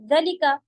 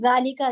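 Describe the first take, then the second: First: The first vowel is short. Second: The first vowel is long. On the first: This is how the word is spelled. "जलिका ही लिखा जाता है" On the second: This is how the word is read aloud. "पढ़ा जालिका जाता है"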